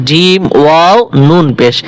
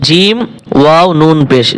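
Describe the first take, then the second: The two takes are said the same way.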